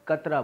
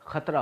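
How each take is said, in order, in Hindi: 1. यह सामान्य k ध्वनि से शुरू होता है। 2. यह kh ध्वनि से शुरू होता है। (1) "कतरा बोल दिया जाता है" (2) "खतरा होता है"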